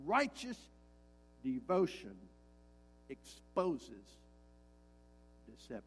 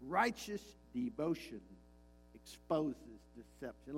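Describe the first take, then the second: First: Preacher repeating the line for emphasis, spaced out; slow, word by word. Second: Said in the usual way. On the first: Shown as a demonstration. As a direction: drive each word home with a pause. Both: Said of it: "Let me say that again".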